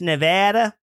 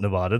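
First: The name is said with a Midwestern sound. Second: The name is said without a Midwestern sound. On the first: This is how locals want it said. The speaker calls it right. "sound like some northern Midwestern hick" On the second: This is how locals dislike hearing it. The speaker calls it wrong. "do not like it when you call it Nevada"

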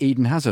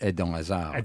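First: The name is said with an English-style pronunciation. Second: The name is said with a native-like pronunciation. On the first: The speaker calls it wrong. "always offended me" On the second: The speaker calls it right. "it's Edon Hazard"

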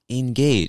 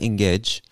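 First: The last syllable has the vowel of 'age'. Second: The last syllable has a different vowel. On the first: The speaker calls it right. "it makes the A sound" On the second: The speaker calls it wrong. "It's not engage"

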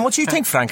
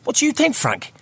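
First: It is said in an Italian-American accent. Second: It is said in a Liverpool accent. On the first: The speaker calls it right. "Obviously in an Italian accent, American yeah. Italian accent" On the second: The speaker calls it wrong. "Not as a Scouser"

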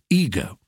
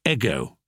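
First: The first vowel is long. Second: The first vowel is short. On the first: This is the American way. "succumbed to American long vowels and say ego" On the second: This is the older British way. "The British English always said ego"

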